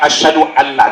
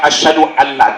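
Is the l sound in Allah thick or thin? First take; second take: thin; thin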